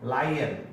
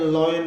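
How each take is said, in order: First: The first vowel sounds like 'lie'. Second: The first vowel does not sound like 'lie'. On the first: The speaker calls it right. "जबकि इसका sound होता है लाई" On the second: The speaker calls it wrong. "लॉयन इस तरह से बोलते हैं"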